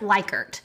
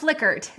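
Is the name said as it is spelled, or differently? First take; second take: as spelled; differently. First: The name is said the way it looks written. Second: The name is said differently from how it looks. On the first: The speaker calls it wrong. "it looks like Likert" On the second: The speaker calls it right. "But it's pronounced Likert"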